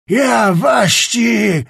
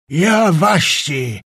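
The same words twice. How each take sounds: First: Higher, very slow yell, "Ja" stretched and hit hard; louder furious shout. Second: Slow shout, "Ja" hit hard; angry shout. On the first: Czapliński escalating at Skrzetuski, higher louder furious shout. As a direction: top the first cry, "Ja waści!" screamed higher. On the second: Czapliński shouting at Skrzetuski, first slow angry shout. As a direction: bark "Ja waści!" in rage, stopping short. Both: A narrator's reading. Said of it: "puszczał tylko urywane wyrazy".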